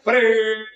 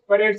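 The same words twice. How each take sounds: First: It is projected forcefully from the belly. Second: It is read out flatly, like ordinary speech. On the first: The speaker calls it right. "तो पेट से parade" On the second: The speaker calls it wrong. "ये आप ये भी normally पढ़ेगा तो देखो"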